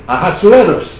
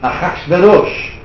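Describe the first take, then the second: First: The name is said with English pronunciation. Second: The name is said with Hebrew pronunciation. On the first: "Or in English" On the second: "Hebrew is Ahasuerus"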